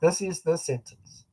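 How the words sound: The pitch falls and stops at the end. The sentence is finished. The speaker calls it right. "you go down at the end and you stop"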